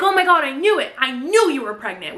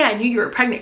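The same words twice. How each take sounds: First: Mock-giddy high squeal; excited gushing. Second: Said in the usual way. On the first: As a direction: gush like a giddy friend. Women gush over Nina's news. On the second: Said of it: "don't say".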